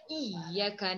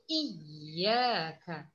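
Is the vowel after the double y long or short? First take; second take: short; long. First: The vowel after the double y is clipped short. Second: The vowel after the double y is drawn out. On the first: The speaker calls it wrong. "Jangan jadi baca iyyaka na. Ha, jangan dilajukan" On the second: The speaker calls it right. "bacaan yang tepat ... panjang"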